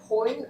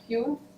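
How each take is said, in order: First: The name is pronounced the German way. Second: The name is pronounced the English way. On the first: "I'm reading it in a German way" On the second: "I don't know what would an English speaker do with this"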